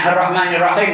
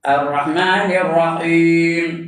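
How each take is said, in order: First: The long vowel is cut short. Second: The long vowel is held for two counts. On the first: The speaker calls it wrong. "tak betul" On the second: The speaker calls it right. "Mesti dua harakat"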